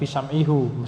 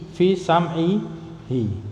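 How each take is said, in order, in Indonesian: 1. Pronomina terakhir berakhir dengan vokal u. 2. Pronomina terakhir berakhir dengan vokal i. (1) "bukan fi sam'ihu, meskipun boleh tapi jarang dipakai" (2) "Jadi i"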